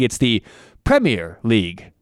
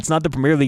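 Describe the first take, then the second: First: The stress is on the first syllable of Premier. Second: The stress is on the second syllable of Premier. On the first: The speaker calls it right. "the emphasis is on the other syllable" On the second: The speaker calls it wrong. "Americans don't say it right"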